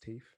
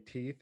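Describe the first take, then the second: First: The word is said with a London accent. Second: The word is said without a London accent. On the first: "it comes out as teeth" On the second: "if you were to say teeth"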